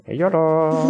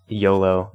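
First: High, drawn-out game-character yolo; Theo. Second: Said in the usual way. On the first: Retold or imitated. Player imitates how the game sounds out yolo, playful high impression. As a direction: mimic the game's voice, pitched up and stretched out. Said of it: "it actually". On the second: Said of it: "when Theo says".

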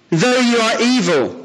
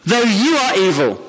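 First: Said in the usual way. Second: "you" leaned on a little, slight fall; stress on you. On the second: Shown as a demonstration. Preacher stresses "you" to his congregation, not we. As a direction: tip the weight onto "you" in "though you are evil". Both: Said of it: "You, not we, but you".

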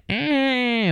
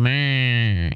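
First: Put-on long drawn-out baby wail "eh"; imitated baby cry. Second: Put-on drawn-out "meh" like a baby's bleat; imitated baby cry. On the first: Retelling how women decode baby cries, mock baby cry. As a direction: imitate a baby's wail, held and falling. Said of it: "put the emphasis on the eh". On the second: Explaining the cry that means poop, mock baby bleat. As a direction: imitate a baby crying with an M onset. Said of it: "put the emphasis on meh".

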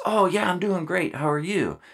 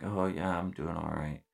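First: Much higher, chipper answer; upbeat reply. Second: Soft, deflated reply, much quieter; struggling marine answering the leader, subdued; kinda down. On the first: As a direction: sound genuinely fine and cheery. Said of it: "their typical reaction to that is". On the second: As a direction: answer flatly, energy gone. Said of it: "And it's kinda down". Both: Retold or imitated.

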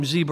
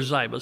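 First: Ziba said as ZEE-buh; Ziba, first syllable like "zee"; pronounced ZEE-ba. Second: Ziba said as ZYE-buh; Ziba, first syllable rhyming with "eye"; pronounced ZYE-ba. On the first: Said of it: "I call him Ziba or Ziba". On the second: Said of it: "I think it's pronounced Ziba". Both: Shown as a demonstration.

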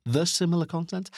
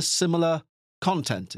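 First: "content" lifted into a question; doubtful self-query. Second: Said in the usual way. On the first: Real, not acted. Podcaster doubting the wording just used, questioning rise on "content".

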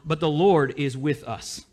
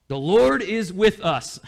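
First: Said in the usual way. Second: The Lord is with us, slow, with Lord hit hard; slow it down and land on Lord; preacher driving home Lord, slowly; emphatic repeat. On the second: Shown as a demonstration. Repeated slower and louder.

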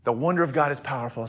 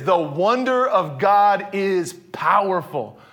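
First: Fast, softer throwaway repeat of "The wonder of God is powerful"; quick recap. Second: Slow proclamation, leaning on "wonder"; proclaimed title. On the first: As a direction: toss it off quickly and lower. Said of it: "Okay, God's writing this story". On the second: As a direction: announce it slowly, "wonder" weighted and long. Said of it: "Chapter five, here it is". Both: Shown as a demonstration.

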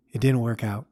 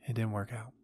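First: Said in the usual way. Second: Much softer, trailing echo of the line; quiet repeat. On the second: Acted. Old man repeating that his first love failed, much softer. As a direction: drop the repeat to almost nothing.

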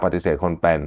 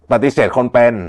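First: Said in the usual way. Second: ปฏิเสธคนเป็น said a little higher and louder; stressed key phrase. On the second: Shown as a demonstration. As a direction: lean on ปฏิเสธคนเป็น to mark it important. (เน้นคำว่า ปฏิเสธคนเป็น) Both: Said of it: "สำคัญมาก".

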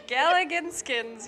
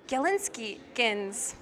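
First: "Galliganskins" said slowly, higher and louder, with conviction; confident mispronunciation. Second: "Galinskikins" drawn out, tentatively; unsure pronunciation. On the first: Reader retrying a word they don't know, confident pronunciation. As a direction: boldly stretch out "Galliganskins" as if sure of it. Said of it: "but say it with confidence". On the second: Reader tackling a strange word in the story, unsure pronunciation. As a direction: slowly sound out "Galinskikins" as an unfamiliar word. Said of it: "don't know how to say that word". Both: A narrator's reading.

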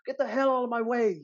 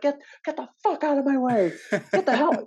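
First: High-pitched, hammed-up British yell; bad British accent. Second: High, loud mock yell of an exasperated performer; imitated yelling. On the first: British actress yelling at extras in her way, mock British accent. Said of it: "in a British accent, though". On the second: Actress yelling at extras in her way, imitated high-pitched yell. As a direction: yell it, mimicking a furious co-star. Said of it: "you can hear her yelling".

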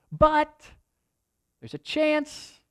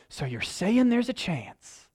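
First: Lightly voiced leper, pitch leaping high on chance; a hint of a desperate leper seeing hope; half-acted leper grabbing at a chance; hopeful leper. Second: Slow, mock-hopeful "So you're saying there's a chance?"; lightly borrowed comedy movie line; playful nod to a famous film line; movie quote. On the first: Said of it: "they're going". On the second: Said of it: "they look at each other and they're like".

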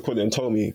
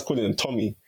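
First: Tommy said as TOH-mee, long o; correct pronunciation. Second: Tommy with a short o, TOM-ee; anglicised Tommy, first part like "tom"; mistaken British pronunciation. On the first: Recalling university friends naming him, Tommy said with a long o. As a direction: say Tommy like "toe-me". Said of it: "is saying it right". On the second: Admitting an old school habit, Tommy said with a short o. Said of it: "saying his name wrong for years". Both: Shown as a demonstration.

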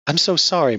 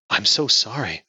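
First: Tearful apology. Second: Gentle comforting apology; sympathetic. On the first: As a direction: voice breaking, higher and louder. Grieving widow apologizes to husband. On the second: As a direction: soothe a grieving friend. Friend comforts grieving woman. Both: Acted.

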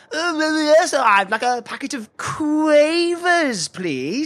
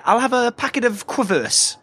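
First: High, slow, drawn-out mimicry of the shop assistant; mocking ninny voice. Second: "Quavers" misread with a short vowel, kwuh-vers; mispronunciation. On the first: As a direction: stretch "Quavers" into a long silly KWAY-vers. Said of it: "You sound like a complete ninny". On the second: Acted. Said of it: "assuming you mean Quavers".

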